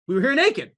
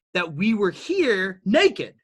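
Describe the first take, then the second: First: Higher, louder repeat hitting naked; rising emphasis. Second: Slow, weighty line landing on naked; slow emphasis. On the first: Speaker repeats that humans began naked, higher and louder. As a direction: hammer the point home with naked punched. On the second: Speaker tells listeners humans began naked, slow and weighty. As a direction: lean on naked, dragged out. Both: Real, not acted. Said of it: "and you can agree".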